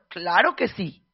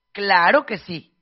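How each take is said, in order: First: Said in the usual way. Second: Louder, slower sarcastic claro que sí, stretched out; loud slow sarcasm. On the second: Real, not acted. To her audience, a loud slow sarcastic claro que sí.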